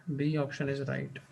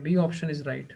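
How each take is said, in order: First: Slow confirming repeat. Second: Said in the usual way. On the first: Shown as a demonstration. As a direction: repeat it slowly and more softly, B stretched out. (धीमे और हल्के स्वर में दोहराना) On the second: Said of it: "अच्छा, ठीक है".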